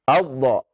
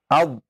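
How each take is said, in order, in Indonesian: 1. Konsonan akhir dilepas dengan gema memantul. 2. Konsonan akhir ditahan tanpa dilepas. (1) "Kalau abdo, nah itu antum pantulkan ya" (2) "Antum tahan terlebih dahulu makhraj dotnya"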